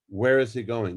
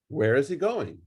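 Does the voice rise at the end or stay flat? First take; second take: flat; rises. First: The voice stays flat without rising. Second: The voice rises at the end like a question.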